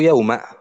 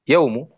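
First: The word ends with an a vowel. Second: The word ends with a u vowel. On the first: "بالفتح" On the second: "برفع الميم"

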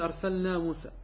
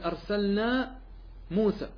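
First: The two words are run smoothly together. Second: The two words are kept clearly apart. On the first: It could be heard as a different word. The speaker calls it wrong. "لا تقل أرسلنا موسى" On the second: The name of the prophet is heard clearly. The speaker calls it right. "قل أرسلنا موسى"

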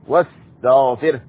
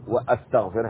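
First: The wa joins straight onto the s sound. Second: A glottal stop separates wa from the s sound. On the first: The speaker calls it right. "الواو مباشرة للسين" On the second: The speaker calls it wrong. "وليس"

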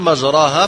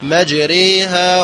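First: The vowel after r is a plain open a. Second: The vowel after r is tilted toward e. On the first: "الأصل مجراها" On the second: "فدخلت الإمالة فقل مجريها"

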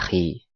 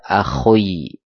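First: The word ends with a plain i sound. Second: The word ends with an oi sound. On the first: The speaker calls it right. "baca akhi" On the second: The speaker calls it wrong. "Atau dibaca akhoi, beda lagi"

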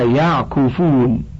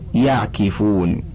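First: The k sound is followed by u. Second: The k sound is followed by i. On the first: "مضموم العين" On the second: "أم مكسورها"

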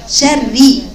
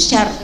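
First: The r is doubled and held longer. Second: The r is short and single. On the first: The speaker calls it right. "لانها مكسوره ولا مشدده، يبقى عندك اثنين راء" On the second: The speaker calls it wrong. "لا هي مش شر"

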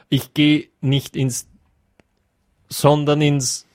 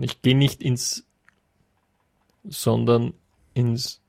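First: The sentence is spoken a bit louder. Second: The sentence is spoken quietly. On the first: "Bisschen lauter, bitte" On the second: "leise sage ich es dann schon"

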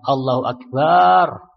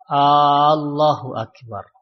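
First: The vowel after b in Akbar is long. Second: The opening vowel is drawn out long. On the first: The word changes to a plural meaning drums. "dengan memanjangkan ba-nya ... ba-nya panjang" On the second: It turns into a question whether God is great. "dengan memanjangkan hamzah"

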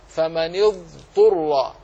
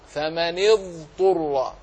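The two takes are said the same way.

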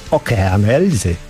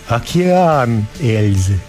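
First: The consonants stay hard, with a Ukrainian accent. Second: The consonants are softened, with a Russian accent. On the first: "a Ukrainiec ... bo Ukraińcy nie zmiękczają" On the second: "Rosjanin nazwę tego zespołu wymówiłby"

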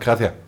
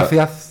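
First: The final s sound is dropped. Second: The final s sound is clearly pronounced. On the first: "sondern sie sagen gracias" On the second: "Sie sagen auch nicht gracias"

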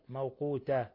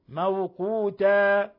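First: The final vowel is held for one beat. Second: The final vowel is held for two beats. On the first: The speaker calls it wrong. "لا يمد حركة واحدة" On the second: The speaker calls it right. "والألف تمد مقدار حركتين. موقوتا فقط"

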